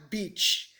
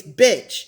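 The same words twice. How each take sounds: First: Beach with a long ee; mistaken pronunciation. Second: Bitch with a short i; correct pronunciation. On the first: Showing the mistake to avoid, beach with long ee. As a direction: stretch the vowel in beach to "ee". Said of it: "not beach". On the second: Correcting her old mistake, bitch with short i. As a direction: keep bitch short-vowelled, as in "it". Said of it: "the right pronunciation is bitch". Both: Shown as a demonstration.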